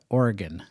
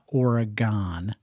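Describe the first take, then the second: First: The name is pronounced the way local residents say it. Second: The name is pronounced unlike how local residents say it. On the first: The speaker calls it right. "you got to pronounce it Oregon. that's what the locals say" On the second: The speaker calls it wrong. "not Oregon"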